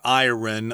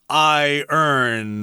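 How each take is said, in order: First: It sounds like 'eye-ron', with a clear 'ron'. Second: It sounds like 'eye-urn', with no clear 'ron'. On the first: The speaker calls it wrong. "not iron" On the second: The speaker calls it right. "it's pronounced iron"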